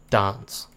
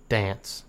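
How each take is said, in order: First: "dance" with a broad ah, like dahns; long-A dance. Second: "dance" with a flat a as in cat; short-A dance. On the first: Kiwi unsure of his accent tries "dance" as dahns. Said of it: "How am I supposed to say dance?". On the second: Kiwi offers the other "dance", with a as in cat. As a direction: say "dance" with the vowel of pants. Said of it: "Or am I meant to say". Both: Shown as a demonstration.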